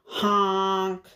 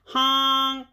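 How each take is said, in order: First: Drawn-out honk, mildly raised; lightly voiced big truck horn; yelled honk. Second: Storybook cry of a stuck truck; mildly scared honk. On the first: Dump truck pushing past the animals, yelled honk. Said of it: "yelled the dump truck". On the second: Dump truck stuck in the mud, mildly scared honk. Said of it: "and he sounded scared". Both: A narrator's reading.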